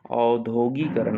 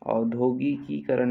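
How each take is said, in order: First: औद्योगिकरण with only one "gi" before करण, no "kee"; correct form. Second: औद्योगिकीकरण with an added "kee" before करण; wrong extra syllable. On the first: Teacher correcting students, औद्योगिकरण without extra "ki". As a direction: run "gi" straight into "karan" in औद्योगिकरण. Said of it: "औद्योगिकरण होता है". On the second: Teacher showing the wrong form, औद्योगिकीकरण with extra "ki". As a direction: put the surplus "ki" into औद्योगिकीकरण. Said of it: "नहीं होता है". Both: Shown as a demonstration.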